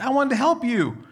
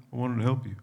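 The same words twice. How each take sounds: First: Much higher, louder whiny plea; hurt protest. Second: Resigned letdown. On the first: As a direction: complain like a let-down dad. Disappointed dad to daughter. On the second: Resigned after daughter declines. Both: Retold or imitated.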